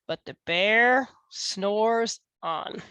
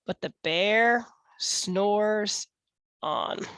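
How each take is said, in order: First: Slow, sleepy storybook refrain. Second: Slow, drawn-out refrain. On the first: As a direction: draw it out like a lullaby. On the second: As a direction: stretch it out sleepily. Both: A narrator's reading. Refrain, slowed.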